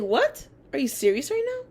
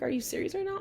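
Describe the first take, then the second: First: High, loud stunned outburst; retold loud shocked what; shocked disbelief. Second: Incredulous. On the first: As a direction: blurt it out in sheer disbelief. Shocked at teacher's denial. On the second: Retold or imitated. Disbelief at teacher's accusation.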